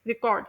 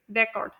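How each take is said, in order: First: record as a verb, re-CORD; verb stress. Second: record as a noun, REC-ord; noun stress. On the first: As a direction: stress the second syllable of record. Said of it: "verb के तौर पर से देखेंगे तो हम लोग कहेंगे". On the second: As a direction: stress the first syllable of record, with a short e. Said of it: "noun में हम देखेंगे तो हम लोग बोलेंगे". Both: Shown as a demonstration.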